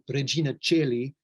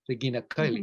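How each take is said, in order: First: It uses Italian-style church Latin pronunciation. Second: It uses reconstructed classical Latin pronunciation.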